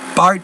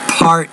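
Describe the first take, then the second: First: The P has only a weak puff of air. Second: The P has a strong puff of air. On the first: The speaker calls it wrong. "So it's not part" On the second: The speaker calls it right. "you need to pr- pronounce that P with more air"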